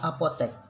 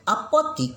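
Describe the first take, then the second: First: The last syllable has an e vowel. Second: The last syllable has an i vowel. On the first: The speaker calls it right. "Yang betul adalah apotek" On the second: The speaker calls it wrong. "penyebutan dan penulisan kata apotik ini salah"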